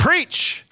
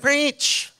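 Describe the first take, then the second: First: The word is said loudly, excitedly and with energy. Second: The word is said quietly, flatly and without energy. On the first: It sounds like enthusiastic encouragement. The speaker calls it right. "You got to say it with some energy, some excitement" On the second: It sounds as if the speaker is sick. The speaker calls it wrong. "You can't just be like, preach. First off, nobody's going to hear it"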